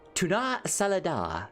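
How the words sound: It is said in a put-on fancy voice. The speaker calls it right. "Because you gotta say it in a, in a fancy way"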